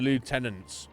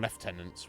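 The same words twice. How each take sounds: First: It is said without an F sound. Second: It is said with an F sound.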